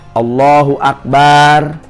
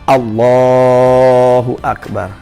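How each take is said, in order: First: The vowel after the b is drawn out. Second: The vowel after the b is kept short. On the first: The speaker calls it wrong. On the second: The speaker calls it right.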